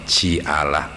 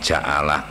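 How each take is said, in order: First: The first consonant is followed by an i vowel. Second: The first consonant is followed by an a vowel. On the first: "dibaca tiga wajah huruf jimnya" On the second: "dibaca tiga wajah huruf jimnya"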